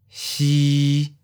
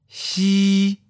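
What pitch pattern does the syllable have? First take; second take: mid flat; high flat. First: The pitch stays level at mid height. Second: The pitch stays level and high. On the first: "mid flat. Seventh tone" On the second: "high flat. First tone"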